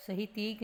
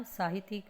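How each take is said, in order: First: साहित्यिक said as "sahitik"; short first "a" in साहित्यिक; wrong pronunciation. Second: साहित्यिक said as "saahitik"; long first "aa" in साहित्यिक; correct pronunciation. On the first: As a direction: misread साहित्यिक as sa-hi-tik. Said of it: "साहित्यिक नहीं होता". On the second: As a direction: clear saa-hi-tik for साहित्यिक. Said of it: "साहित्यिक होता है". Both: Shown as a demonstration.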